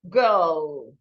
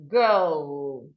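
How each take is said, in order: The two takes are said the same way.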